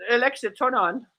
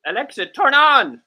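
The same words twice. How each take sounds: First: A polite, restrained command, pitched up a little; nice, measured request to a gadget. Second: Higher, louder second attempt; insistent, raised-voice command; firmer command. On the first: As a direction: ask it nicely, without shouting. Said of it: "Let me say it the nice way". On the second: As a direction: raise the voice to make the gadget obey. Repeats failed command more forcefully. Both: Shown as a demonstration.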